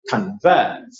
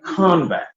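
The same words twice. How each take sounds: First: Convert with a low unstressed con and stressed VERT; verb stress. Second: Convert with CON high and stressed, falling on vert; noun stress. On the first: Teacher sounding out the verb form, second-syllable stress on Convert. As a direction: slip past con, land on VERT in Convert. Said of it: "I write in caps my stressed syllable". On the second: Teacher sounding out the noun, first-syllable stress on Convert. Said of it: "this word is what?". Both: Shown as a demonstration.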